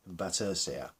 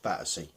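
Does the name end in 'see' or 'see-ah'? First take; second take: see-ah; see. First: The name ends with a 'see-ah' sound. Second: The name ends with a plain 'see' sound. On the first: The speaker is trying to sound more important. The speaker calls it wrong. "they would change the pronunciation" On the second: This is the name's ordinary form. The speaker calls it right. "it's Battersea"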